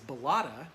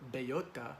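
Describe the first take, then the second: First: The name is said in an English-style way. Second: The name is said in a Spanish-style way. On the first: "they pronounced the planet as Bellotta" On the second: "since it's a Spanish word"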